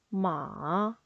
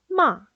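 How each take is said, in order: First: The pitch dips down, then rises. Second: The pitch falls sharply, short and strong. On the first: It means horse. "음을 내렸다 올리시면 돼요" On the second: It means to scold. "짧고 굵고 세게 내리꽂으시면 돼요"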